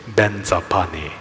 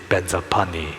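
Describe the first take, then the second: No difference in how they are said.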